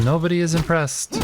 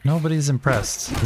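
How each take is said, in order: First: Higher, spelled-out "Nobody is impressed"; stress on IS. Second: Said in the usual way. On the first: Shown as a demonstration. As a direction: hit "is" to make the point.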